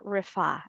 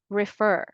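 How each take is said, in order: First: "refer" as rih-FAH, final r dropped; British pronunciation. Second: "refer" as rih-FUR, final r sounded; American pronunciation. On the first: Teacher giving learners the alternative, British "refer", rih-FAH. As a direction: stress an open FAH ending in "refer". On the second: Teacher reassuring learners with the correct form, American "refer", rih-FUR. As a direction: stress the r-coloured ending of "refer". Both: Shown as a demonstration. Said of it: "saying this word correctly".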